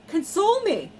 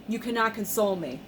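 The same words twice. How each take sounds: First: High, loud on console; emphatic. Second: Said in the usual way. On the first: Real, not acted. Fan insisting nothing can console her, high and emphatic.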